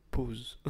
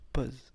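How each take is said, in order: First: "Pause" with a closed O, like "pohz"; standard closed O. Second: "pause" with an open O, like "pozz"; own accent. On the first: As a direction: round the vowel carefully in "Pause". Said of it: "j'aime pas comment ça sonne". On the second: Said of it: "Moi, je te dis pause". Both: Shown as a demonstration.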